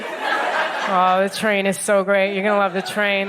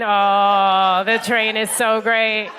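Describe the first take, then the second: First: Slow, drawn-out train praise; mock gushing. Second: Drawn-out slow gush about the train; mock the bland train enthusiasm. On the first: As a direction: parody the locals' stock reply. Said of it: "and you're like". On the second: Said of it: "every time". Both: Comic mocking locals' train praise, slow gush.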